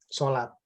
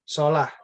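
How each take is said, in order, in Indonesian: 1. Kata itu diakhiri dengan bunyi t. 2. Kata itu diakhiri dengan bunyi h.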